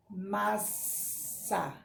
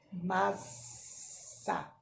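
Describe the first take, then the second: First: "Massa" said slowly with the ss hissed; voiced "Massa" with a long sss; hissing S. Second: "massa" whispered, the ss a long snake hiss; whispered "massa" with a drawn sss. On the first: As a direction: say "Massa" drawing out the ss. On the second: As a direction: breathe "massa" out, all hiss. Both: Shown as a demonstration. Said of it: "Todas têm um sonzinho da cobra".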